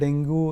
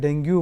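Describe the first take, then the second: First: The word ends in an 'oo' sound. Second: The word ends in a 'yoo' sound. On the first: "पयलीं आमी ताका डेंगू नाजाल्यार डेंग्यू म्हणटाले" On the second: "पयलीं आमी ताका डेंगू नाजाल्यार डेंग्यू म्हणटाले"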